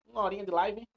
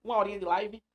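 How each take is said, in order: Both takes have the same delivery.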